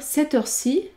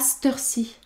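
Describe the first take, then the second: First: The word 'cette' is said in full. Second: The word 'cette' is shortened to 'st'. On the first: "On peut dire cette heure-ci" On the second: "vous pouvez également entendre"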